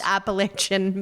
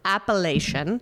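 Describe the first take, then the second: First: Appalachian said as ap-uh-LAY-chun, like the mountains; wrong word, the mountains. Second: Appellation said ap-uh-LAY-shun, ending in -shun; correct wine term. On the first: Host warning listeners off the mountain word, saying Appalachian as ap-uh-LAY-chun. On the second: Host showing wine listeners appellation as ap-uh-LAY-shun. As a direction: give appellation with a clear -shun ending, rising. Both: Shown as a demonstration. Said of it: "when you say appellation, not Appalachian".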